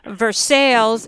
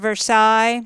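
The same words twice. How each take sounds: First: It is the local Pittsburgh pronunciation. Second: It is the standard pronunciation. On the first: This is how the local town is named. The speaker calls it wrong. "We have little towns up here, Governor, called Versailles" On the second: This is how the name is usually said. The speaker calls it right. "instead of Versailles"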